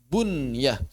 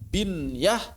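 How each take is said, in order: First: The first vowel is a u sound. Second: The first vowel is an i sound. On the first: "boleh dibaca bunyah" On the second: "Boleh dibaca binyah"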